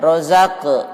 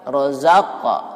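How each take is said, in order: First: The final vowel sounds like 'e'. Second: The final vowel sounds like 'a'. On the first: The speaker calls it wrong. "jangan rozaqe" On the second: The speaker calls it right. "bagusnya ke fathah"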